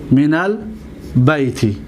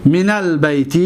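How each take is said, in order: First: من البیت slowly, with a clear break before the last word. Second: Said in the usual way. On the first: Shown as a demonstration. Teacher dictating the example to students, slowly word by word. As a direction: split من البیت into two slow, separate pieces. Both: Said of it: "دقت بدید".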